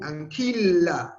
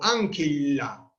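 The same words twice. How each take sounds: First: The stress is on the second syllable. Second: The stress is on the first syllable. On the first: The speaker calls it right. "el acento se va ahí" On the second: The speaker calls it wrong.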